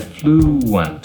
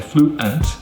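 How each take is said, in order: First: A W sound links the two vowels. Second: The two vowels are said without a W sound. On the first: The speaker calls it right. "we say fluent. ... I'm adding a W sound" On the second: The speaker calls it wrong. "we don't say fluent"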